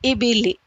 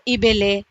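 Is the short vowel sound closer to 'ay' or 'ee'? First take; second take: ee; ay. First: The vowels are clear, close 'ee' sounds. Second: The vowels are open, 'ay'-like sounds. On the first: The speaker calls it right. "ज़ेर की आवाज़ को मारूफ पढ़ने से मुराद ये है" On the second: The speaker calls it wrong. "पहले के जो अ, पढ़े हुए लोग हैं वो मजहूल तरीक़े से पढ़ते हैं"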